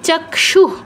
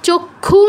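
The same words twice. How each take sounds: First: The word ends with a light breathy h. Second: The word ends without a breathy h sound. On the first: The speaker calls it right. "বিসর্গ জায়গায় অর্ধ হ" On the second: The speaker calls it wrong. "চক্ষু নয়"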